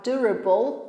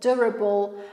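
No difference in how they are said.

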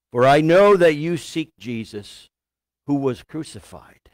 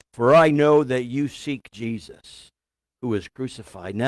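Both takes have the same delivery.

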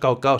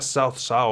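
First: The name is read as spelled, Spanish-style. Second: The name approximates the Mandarin pronunciation. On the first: This is the habitual pronunciation used in older games. The speaker calls it wrong. "Cao Cao no es Cao Cao" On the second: This is the real Chinese pronunciation. The speaker calls it right. "Se pronuncia Shao Shao o algo así parecido"

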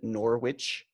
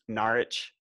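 First: The w in the middle is pronounced. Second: The w in the middle is silent. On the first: The speaker calls it wrong. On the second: The speaker calls it right.

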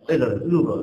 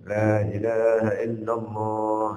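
First: It is said very fast and unclearly. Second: It is said slowly and clearly.

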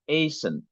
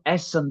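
First: The final syllable has a weak, reduced vowel. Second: The final syllable has a full e vowel. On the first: The speaker calls it right. "E düşer. Biraz incelir" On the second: The speaker calls it wrong. "bu Essen değil"

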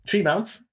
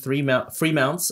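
First: The first word begins with a plain 't' sound. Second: The first word begins with a 'th' sound. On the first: The speaker calls it wrong. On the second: The speaker calls it right.

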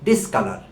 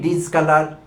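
First: The prefix is said with a hissing s sound. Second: The prefix is said with a buzzing z sound. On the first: The speaker calls it right. "এটি একটি hissing sound" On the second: The speaker calls it wrong. "আমরা বলি ... আমরা এই ডিজ ডিজ বলতে থাকি"

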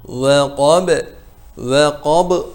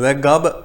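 First: The final b takes on the thick quality. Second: The first consonant is voiced like g. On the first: "B'yi kafın kalınlığına kaptırmayın" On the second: "Ve gab da olmasın"

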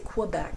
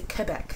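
First: It starts with an English kw sound. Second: It starts with a French k sound. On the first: The speaker calls it wrong. "I don't say Quebec ... I don't qua it the way some Anglophiles do" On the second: The speaker calls it right. "That's Quebecois ... It's the French way to pronounce it"

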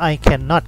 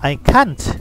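First: The negative is said in full as cannot. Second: The negative is contracted to one short syllable. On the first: The negation is emphasized. "จะเป็นการเน้นย้ำ" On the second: Ordinary casual spoken usage. "ฝรั่งพูดสั้นๆไปเลย"

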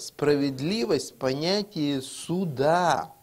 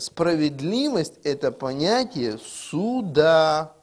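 First: The sentence is spoken at a normal pace. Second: The sentence is spoken slowly and deliberately.

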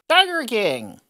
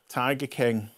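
First: It is said in an exaggerated, put-on showbiz voice. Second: It is said in a plain, normal speaking voice.

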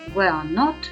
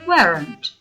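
First: It is said as two separate full words. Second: It is said as one contracted word.

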